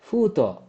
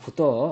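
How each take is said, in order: First: The first vowel is drawn out long. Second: The first vowel is short. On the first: The speaker calls it right. "ಇದು ದೀರ್ಘಾಕ್ಷರ" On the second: The speaker calls it wrong. "ಇದು ದೀರ್ಘಾಕ್ಷರ ಇಲ್ಲ ಅನ್ಕೊಳ್ಳಿ"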